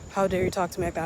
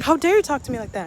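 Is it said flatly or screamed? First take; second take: flatly; screamed. First: It is read flatly without emotion. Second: It is screamed loudly with strong emotion.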